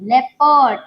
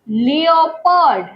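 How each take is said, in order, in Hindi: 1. शब्द 'leh' से शुरू होता है। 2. शब्द 'lee-oh' से शुरू होता है। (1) "इसे बोलते हैं लेपर्ड" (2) "इसे लियोपर्ड नहीं बोलते हैं"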